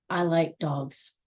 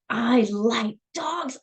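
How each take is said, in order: First: It is said flatly, as a plain statement. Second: It is said with strong, heartfelt feeling.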